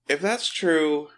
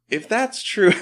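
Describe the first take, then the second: First: It is said in a normal adult voice. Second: It is said in a put-on child voice.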